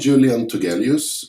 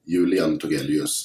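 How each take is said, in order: First: The name is pronounced with English sounds. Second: The name is pronounced with Swedish sounds. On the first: The speaker calls it wrong. "in English pronunciation" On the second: The speaker calls it right. "in Swedish pronunciation"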